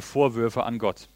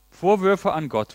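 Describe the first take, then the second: First: Said in the usual way. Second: Vorwürfe repeated higher, stress on Vorwürfe; emphatic echo. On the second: Shown as a demonstration.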